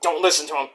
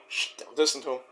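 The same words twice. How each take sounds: First: Said in the usual way. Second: Much softer, hushed warning; soft hushed plea; hushed aside. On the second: Retold or imitated. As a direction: shush him and warn under your breath. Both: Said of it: "Joey's like".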